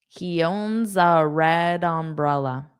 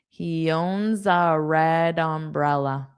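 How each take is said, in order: The two takes are said the same way.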